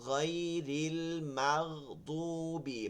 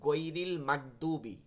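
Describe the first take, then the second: First: The first consonant is rubbed at the palate. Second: The first consonant is a plain hard g stop. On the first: The speaker calls it right. "গইনটা উচ্চারণ করে তালুতে একটু ঘষা খাইতেছে" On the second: The speaker calls it wrong. "এরকম বলি, এটা হবে না"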